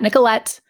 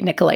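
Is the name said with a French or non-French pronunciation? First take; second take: non-French; French. First: The name has a non-French pronunciation. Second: The name has a French pronunciation. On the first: The speaker calls it wrong. "not Nicolette" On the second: The speaker calls it right. "It's a French pronunciation"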